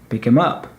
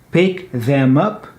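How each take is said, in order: First: The word 'them' is reduced to 'em'. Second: The word 'them' is said in full. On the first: "becomes many times pick 'em" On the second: "Pick them up becomes many times"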